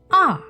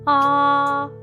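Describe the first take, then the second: First: The pitch falls sharply from high to low. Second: The pitch stays high and level. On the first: "let your voice go all the way down" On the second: "keep your voice high and flat"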